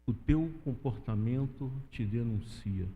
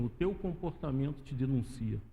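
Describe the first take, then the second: First: "O teu comportamento te denuncia" slowed right down, lower, each word weighed; slow emphatic repeat. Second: Said in the usual way. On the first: Shown as a demonstration. Preacher repeating the woman's words to the church, slow and weighty. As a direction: let "teu" land heavy and drag the line out.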